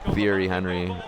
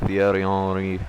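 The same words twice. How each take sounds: First: It is said with an American accent. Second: It is said with a French accent.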